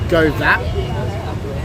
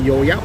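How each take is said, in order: First: It is pronounced with an Australian English accent. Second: It is pronounced with a local Vietnamese accent. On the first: This is how an outsider reads the spelling. "if you would pronounce it in Aussie, in, in English, it's like" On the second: This is how locals say it. "but we say"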